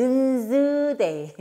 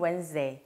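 First: "Wednesday" sounded letter by letter as wen-deu-zeu-day, loud; spelled-out mispronunciation. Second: Said in the usual way. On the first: Shown as a demonstration. Teacher jokingly showing mothers the spelling, "Wednesday" mispronounced syllable by syllable. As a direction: say "Wednesday" slowly with the silent d sounded. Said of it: "정확한 발음은 Wednesday". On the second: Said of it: "정확한 발음은".

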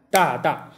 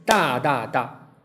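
First: 大大 as two even eighth notes; 大, 大, evenly split across one beat; eighth-note rhythm. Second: 大大大 as three evenly spaced notes; three equal, measured syllables, 大, 大, 大; triplet rhythm. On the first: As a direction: demonstrate the beat with two equal syllables, 大大. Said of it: "两个八分音符就是". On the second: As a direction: sound out a slow triplet on 大大大. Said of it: "三连音就是". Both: Shown as a demonstration.

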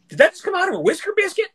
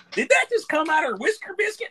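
First: Put-on very high, fast Southern belle voice in a Carolina accent. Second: Very high squealing Carolina Southern woman voice; Carolina Southern accent. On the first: Retelling a TikTok duet, mimics the Carolina Southern woman's question. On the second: Retold or imitated. Retelling the duet again, repeats the Carolina Southern woman's line. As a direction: pitch way up into a mock Carolina Southern belle. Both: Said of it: "she had the Carolina Southern accent".

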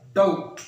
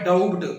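First: Said in the usual way. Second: "ڈاؤبڈ" with an audible B before the last stop; "ڈاؤبڈ" said loudly, as spelt, B pronounced; B clearly sounded. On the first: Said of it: "بے کی آواز نہ آئے". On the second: Shown as a demonstration. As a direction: read the silent B aloud in "ڈاؤبڈ". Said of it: "بی کی آواز واضح آ رہی ہے".

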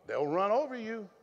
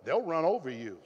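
First: "over" lifted and hit, falling after; stress on over. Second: They'll punched, the rest falling away; stress on they'll. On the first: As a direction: push the weight onto "over". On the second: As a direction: lean hard on "They'll" and let "run over you" drop. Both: Acted. Repeated line, stress shifts.

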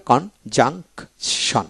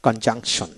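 First: Slow কন-জাং-শন with clear gaps; very slow, split-up conjunction; syllable by syllable. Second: Said in the usual way. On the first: Shown as a demonstration. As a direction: read conjunction in three separate syllables. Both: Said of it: "এইভাবে".

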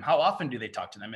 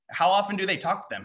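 First: How stressed, lower with a rise; second take, stress on how. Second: Often lifted high; first take, stress on often. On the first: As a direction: start on the word how and let the line rise. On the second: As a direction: lean on the word often, said high. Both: Shown as a demonstration.

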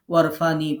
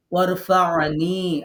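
First: ওয়ারফা'নি said quickly as plain warfani, the ain dropped; wrong, no ain. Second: ওয়ারফা'নি slow, ain sounded from the throat before নি; correct with ain. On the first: Retold or imitated. Teacher imitates students who skip the ain. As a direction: say ওয়ারফা'নি as warfani, skipping the throat sound. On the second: Shown as a demonstration. Teacher models the correct ain after the wrong version. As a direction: give ওয়ারফা'নি its full ain, slowly. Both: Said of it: "আইন উচ্চারণই করেন নাই".

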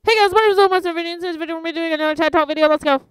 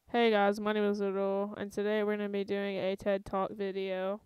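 First: Loud, high, rushed youtuber intro; hyped intro. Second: Lower, restrained youtuber intro; slowed-down intro. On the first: Youtuber trying out the pace lesson, excited and fast. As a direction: blast through it at top energy. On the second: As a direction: hold back and deliver it evenly. Calm take against hyped one. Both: Shown as a demonstration.

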